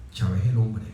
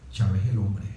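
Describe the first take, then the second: No difference in how they are said.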